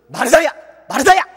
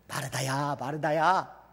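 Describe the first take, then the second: First: The name is called in a harsh, scolding tone. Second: The name is called in a gentle, loving tone.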